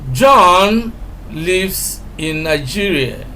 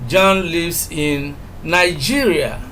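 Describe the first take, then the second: First: The word John carries the strongest stress. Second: The word Nigeria carries the strongest stress. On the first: It is this person, not another, who lives there. "we are emphasizing John" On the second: He lives in this country, not another. "if we emphasize Nigeria"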